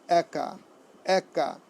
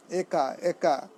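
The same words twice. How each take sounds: First: একা with an open "æ" as in "cat"; correct pronunciation. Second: একা with a closed "e" as in "day"; common mispronunciation. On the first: Teacher giving students the right form, একা said "æ-ka". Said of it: "এর উচ্চারণটি কী হবে?". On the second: Teacher showing students the common error, একা said "ay-ka". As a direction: say একা wrongly, first vowel "ay". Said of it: "আমরা অনেক সময় ভুল উচ্চারণ করি". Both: Shown as a demonstration.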